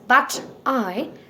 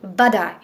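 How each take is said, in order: First: The T is a clear, full T sound. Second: The T is a soft D-like flap. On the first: "Instead of calling it as" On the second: "we call it"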